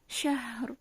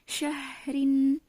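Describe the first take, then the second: First: The word stops on the final r sound. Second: The word ends with a vowel and n.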